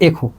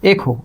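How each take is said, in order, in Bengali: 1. প্রথম স্বরধ্বনিটি 'e'। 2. প্রথম স্বরধ্বনিটি 'e'।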